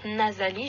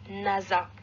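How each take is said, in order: First: The word is said in full, three syllables. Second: The word is cut short, two syllables. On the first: "Au lieu de dire nasali" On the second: "je disais nasa"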